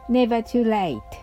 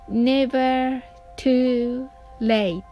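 First: It is said fast. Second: It is said slowly.

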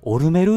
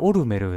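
First: The name is said with a strong rural accent. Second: The name is said in a plain, neutral way. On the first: This is how it was said on the show. "なんかすごい訛りが強いっていうイメージもあったし、なんか田舎の人が言ってる感じ" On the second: This is how the speaker always said it. "僕はオルメルだったんですよ"

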